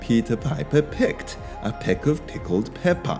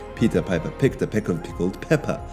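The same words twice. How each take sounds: First: It is said at an ordinary, unhurried speed. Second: It is said quickly, as a rapid tongue twister.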